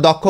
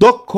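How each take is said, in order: First: দক্ষ with an open "aw" vowel first, "dawk-kho"; everyday pronunciation. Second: দক্ষ with a closed "o" first, "dok-kho"; correct pronunciation. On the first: Teacher quoting how we usually say it, দক্ষ with open first vowel. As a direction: say দক্ষ colloquially as dɔk-kho. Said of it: "আমরা দক্ষ বলি". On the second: Teacher giving students the correct form, দক্ষ as dok-kho. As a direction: round the first vowel of দক্ষ to a full o. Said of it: "কিন্তু উচ্চারণ হবে কি?". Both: Shown as a demonstration.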